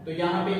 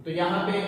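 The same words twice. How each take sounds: The two takes are said the same way.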